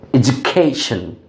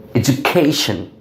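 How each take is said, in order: First: The middle k sound has a puff of air. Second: The middle k sound has a puff of air.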